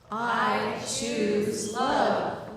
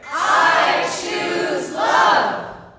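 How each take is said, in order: First: It is said at a moderate volume. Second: It is said at the loudest volume.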